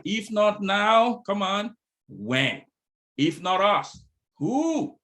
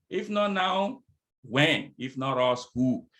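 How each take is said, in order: First: Slow, loud, high punch on now and us; emphatic rally. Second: Said in the usual way. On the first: Acted. Speaker rallying the audience to act now, slow loud emphasis. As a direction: hammer each question home, very slow.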